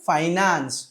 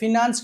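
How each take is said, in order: First: The first syllable has an 'eye' sound. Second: The first syllable has a short 'i' sound. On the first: The speaker calls it right. "ఫైనాన్స్ ఆర్ ఫనాన్స్" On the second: The speaker calls it wrong. "ఫినాన్స్ కాదు"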